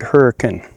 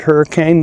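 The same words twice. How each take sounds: First: The name is said the local town way. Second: The name is said the common, usual way. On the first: This is how the townspeople say it. The speaker calls it right. "they pronounced it hurricane" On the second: This is how outsiders would say it. The speaker calls it wrong. "they also don't pronounce it hurricane"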